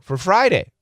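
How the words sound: It is said as a confirmation. The listener confirms what was said. "Or you can just make it a confirmation"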